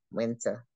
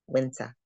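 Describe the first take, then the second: First: Said in the usual way. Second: Winter said the Boston way with no R at the end, "winter" as wintah; for those of you in Mass, drop the final R in winter; Boston accent. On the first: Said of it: "we say winter". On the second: Shown as a demonstration. For Massachusetts listeners, Boston accent. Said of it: "There's no R at the end".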